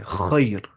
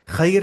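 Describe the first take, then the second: First: The first sound is heavy and thick. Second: The first sound is light and thin. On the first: The speaker calls it right. "ऐसे" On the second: The speaker calls it wrong. "नहीं"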